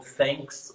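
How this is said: It begins with a true English 'th' sound. The listener is a foreigner. "com som de T H"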